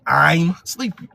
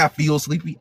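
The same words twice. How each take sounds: First: Slow, drowsy delivery; sleepy. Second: Said in the usual way. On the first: Shown as a demonstration. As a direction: say it like you're nodding off. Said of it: "You say". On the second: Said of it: "you don't say".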